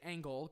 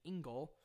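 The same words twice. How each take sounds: First: The name is said with a German-style pronunciation. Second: The name is said with an American-style pronunciation. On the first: "I say Engel because that's closer to the actual German pronunciation" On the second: "a lot of people Americanize it by saying Engel"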